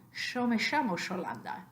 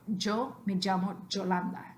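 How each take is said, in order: First: It has an Argentine sh sound. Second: The y is pronounced like j.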